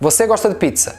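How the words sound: It ends falling, like a statement.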